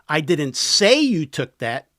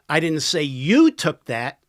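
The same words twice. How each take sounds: First: The word 'say' carries the strongest stress. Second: The word 'you' carries the strongest stress. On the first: It was only implied. "I implied it" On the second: Someone else took it. "Somebody else did"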